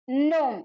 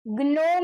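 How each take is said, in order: First: નોમ starting straight on N; silent G. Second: ગ્નોમ with a hard G before the N; G wrongly pronounced. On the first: Teacher gives students the correct word, silent G in નોમ. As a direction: leave out the G, say નોમ. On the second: Teacher shows students what not to say, G sounded in ગ્નોમ. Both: Shown as a demonstration. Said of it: "ગ્નોમ નહીં".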